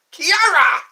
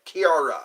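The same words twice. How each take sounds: First: High, very loud mock karate cry; karate yell. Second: Said in the usual way. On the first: Playing with a viewer's name, karate yell. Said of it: "That sounds like karate". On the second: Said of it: "That's how you say it".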